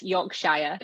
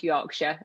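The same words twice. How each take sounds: First: "Yorkshire" said slowly as written, ending "shire" like "shy-er"; "Yorkshire" as spelled, slow and literal; spelling pronunciation. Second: "Yorkshire" said "York-sher" with a short weak ending; proper local pronunciation. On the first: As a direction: read "Yorkshire" out the way it's spelled, full "shire". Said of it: "It's spelled Yorkshire". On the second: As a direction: give "Yorkshire" the way locals say it, "shire" clipped to "sher". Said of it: "but it's pronounced Yorkshire". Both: Shown as a demonstration.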